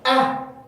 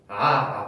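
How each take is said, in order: First: It is said sharply, like a cry of pain. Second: It is said softly, without a sharp burst.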